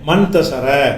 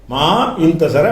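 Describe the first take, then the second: First: The words merge into one word, mantasara. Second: Ma and intasara are said as separate words. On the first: The speaker calls it right. "எப்படி வாசிக்கணும்?" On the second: The speaker calls it wrong. "அப்படி சொல்லக்கூடாது"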